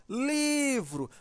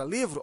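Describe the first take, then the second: First: "livro" called out, first syllable LI held long; calling the word out. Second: Said in the usual way. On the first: Shown as a demonstration. Teacher demonstrating the stressed syllable to pupils, "livro" called out with long LI. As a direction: stretch the LI of "livro" as if calling it, higher and slow. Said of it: "Se você chamar a palavra livro". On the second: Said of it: "olha como vai ficar".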